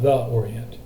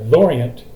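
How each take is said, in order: First: 'The' is said as its own separate syllable. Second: 'The' merges into 'Orient', dropping a syllable. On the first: The speaker calls it wrong. "not the Orient" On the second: The speaker calls it right. "you put them together, Lorient, you have managed to drop a syllable"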